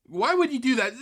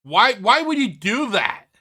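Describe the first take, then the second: First: Said in the usual way. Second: Exasperated demand. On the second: Real, not acted. Repeated demand to Phil.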